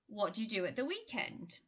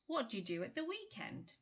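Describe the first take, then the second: First: The small words are weakened and run together. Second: The small words are weakened and run together.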